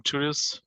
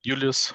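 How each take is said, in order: First: "Julius" with an English J, as in June; English name pronunciation. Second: "Julius" with a Y sound for the J; German name pronunciation. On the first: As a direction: say "Julius" as JOO-lee-us. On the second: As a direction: say "Julius" as YOO-lee-us. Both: Shown as a demonstration. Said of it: "as you like".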